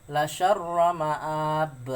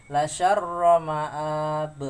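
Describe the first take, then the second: Both takes have the same delivery.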